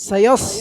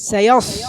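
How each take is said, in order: Both takes have the same delivery.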